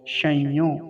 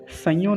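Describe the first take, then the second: First: The word begins with a palatal sh sound. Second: The word begins with a plain s sound. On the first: The speaker calls it right. "तालव्य शकार का ध्यान रखेंगे" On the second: The speaker calls it wrong. "संयो नहीं बोलेंगे"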